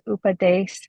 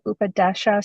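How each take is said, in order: First: The word ends on the sh sound. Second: The word ends on an added vowel. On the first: "if you're in the Punjab, it's Upadesh" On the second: "there's also Upadesha"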